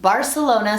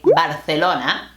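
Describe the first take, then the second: First: The city name is said in English. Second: The city name is said in Spanish.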